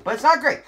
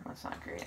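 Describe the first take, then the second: First: High, loud exclamation; loud protest. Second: Soft, voiceless aside; whispered dismay. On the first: Player protesting his bad luck, loud exclamation. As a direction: burst out in exasperation. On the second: Player laughing at his bad luck, whispered dismay. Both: Real, not acted.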